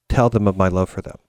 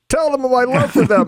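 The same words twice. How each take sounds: First: It is said calmly and gently. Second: It is said loudly and emotionally.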